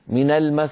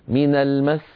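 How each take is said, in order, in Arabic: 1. السين الأخيرة خفيفة، من غير ضغط. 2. السين الأخيرة تُمدّ مدّا طويلا. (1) "لا نقول من المس من المس هكذا" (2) "يمطون صوتهم في السين"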